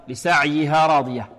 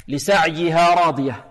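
No difference in how they are said.

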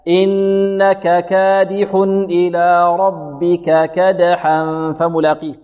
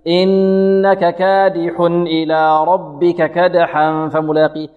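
First: The vowels get their full length at measured pace. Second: The vowels are clipped and the recitation is rushed. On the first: The speaker calls it right. "لا" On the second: The speaker calls it wrong. "يخطف أو يسرع فيها"

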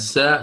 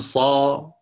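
First: The syllable is pronounced light with a plain vowel. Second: The syllable is pronounced thick with heavy emphasis. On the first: The speaker calls it right. "في عوض أن تقول سا" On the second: The speaker calls it wrong. "ستقول صا، ستفخم هذا الحرف"

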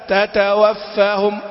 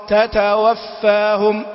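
Both takes have the same delivery.

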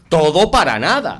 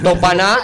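First: Every syllable of the phrase is clearly pronounced. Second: The phrase is squeezed into three quick syllables. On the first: The speaker calls it right. "un profesional de la locución debe decir ... todo para nada" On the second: The speaker calls it wrong. "una pronunciación que podríamos denominar relajada"

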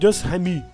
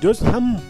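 First: An extra vowel is sounded after the M. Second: The word ends right on the M. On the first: The speaker calls it wrong. "não é Just Ham" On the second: The speaker calls it right. "você tem que parar no M ali, não fala o E"

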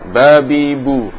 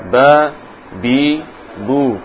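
First: The syllables are joined together without breaks. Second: The syllables are said separately with breaks. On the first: "kemudian disambung" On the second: "dibaca secara terputus dulu"

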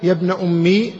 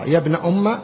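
First: The phrase ends in a long i vowel. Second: The phrase ends in a short a vowel. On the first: The speaker calls it wrong. "بالياء" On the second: The speaker calls it right. "بالفتح"

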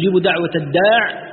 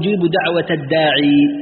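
First: The last word ends without the final 'ee' sound. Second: The last word ends with the final 'ee' sound. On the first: "خلاف القراء فيها دائر بين الحذف والإثبات" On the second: "خلاف القراء فيها دائر بين الحذف والإثبات"

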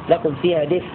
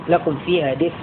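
The two takes are said the same way.

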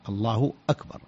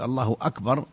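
First: A glottal stop begins the second word. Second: A w sound links the two words. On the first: The speaker calls it right. "وأكبر الهمزة مقطوعة، همزة قطع" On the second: The speaker calls it wrong. "ننطق بحرف واو في وسط التكبير"

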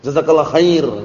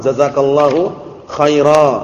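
First: The final vowels of both words are dropped. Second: The final vowels of both words are pronounced. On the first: The speaker calls it wrong. "itu aslinya lahan" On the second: The speaker calls it right.

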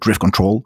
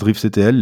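First: CTL is said as the word control. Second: CTL is said as separate letters. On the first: This is how English speakers say it. "en anglais, les gens ont plutôt l'air de dire Drift Control" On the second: This is how French speakers say it. "En français, on dit plutôt, j'ai l'impression, Drift CTL"

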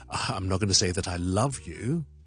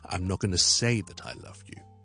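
First: The stress is on the word love. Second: The stress is on the word say. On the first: The feeling is only friendship, not love. "个重点就喺放咗个love 度。" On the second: The love will be shown through actions rather than words. "重点放咗个say, 后面嗰啲就唔系咁重要，我哋轻咗佢。语调呢系跌咗落最低。"

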